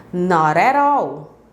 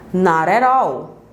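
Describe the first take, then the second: Both takes have the same delivery.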